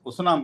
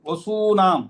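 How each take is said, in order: First: The second vowel is short. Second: The second vowel is long. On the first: The speaker calls it wrong. "వసునాం కాదు" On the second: The speaker calls it right. "దీర్ఘం ఉండాలి అక్కడ"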